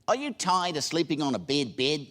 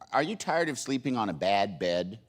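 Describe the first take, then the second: First: It is said in an imitated New Zealand accent. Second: It is said in the speaker's plain accent. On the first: "But they said" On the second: "and they said"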